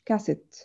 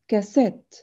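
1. النبر على المقطع الأول. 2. النبر على المقطع الثاني. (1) "مش كاسيت" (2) "اسمها كاسات ... الستريس بتاعنا على المقطع التاني"

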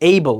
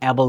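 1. প্রথম স্বরধ্বনিটি একটি 'ay' ধ্বনি। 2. প্রথম স্বরধ্বনিটি একটি ছোট 'a' ধ্বনি। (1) "সো এইবল" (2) "এটা কিন্তু অ্যাবল না"

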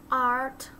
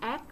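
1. Nguyên âm là 'ah' dài, mở. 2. Nguyên âm ngắn, như trong 'act'. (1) "Không phải o mà là art" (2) "Nó không phải là act"

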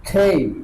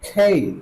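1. Gliding স্বরের সাথে k aspirated. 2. Gliding স্বরের সাথে k অ্যাসপিরেটেড।

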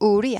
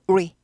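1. 이 단어는 두 박자에 걸쳐 길게 늘여서 말합니다. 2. 이 단어는 한 박자에 빠르게 말합니다. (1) "우리 아니고" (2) "우리를 한 박자에 빨리 하는 거죠"

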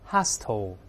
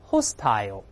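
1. 这个词用美式口音说。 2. 这个词用英式口音说。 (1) "美式发音重音在前面，后面发o 音" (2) "英式翻译是这么读的"

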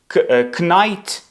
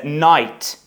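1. На початку чути звук k. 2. Слово починається зі звуку n. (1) "Також knight люблять читати" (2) "насправді це night"

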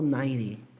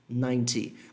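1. O som do t é pronunciado suave e fraco. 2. O som do t é pronunciado forte e claro. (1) "eu falo 90" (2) "Algumas regiões que puxam mais o T vão falar 90"

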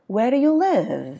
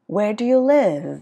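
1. Giọng đi xuống ở cuối câu. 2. Giọng đi xuống ở cuối câu.

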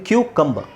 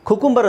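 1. ಮೊದಲ ಉಚ್ಚಾರಾಂಶ y ಇರುವ "kyoo" ಶಬ್ದ. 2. ಮೊದಲ ಉಚ್ಚಾರಾಂಶ ಸರಳವಾದ "koo" ಶಬ್ದ. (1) "ಬಟ್ ಇದು ಕ್ಯೂಕಂಬರ್" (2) "ಕುಕುಂಬರ್ ಅಂತ ಹೇಳ್ತಾರೆ"

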